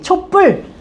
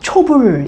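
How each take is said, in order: First: The second syllable starts with a tensed pp. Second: The second syllable starts with a plain b. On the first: The speaker calls it right. "촛불 이럴 때 사이시옷 넣습니다" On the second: The speaker calls it wrong. "초불 이러지 않지"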